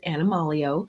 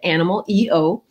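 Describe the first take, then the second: First: The ending blends into one word, animalio. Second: The ending is spelled out as letters E-O. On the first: "she pronounces it Animalio" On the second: "capital EO, which stands for essential oils"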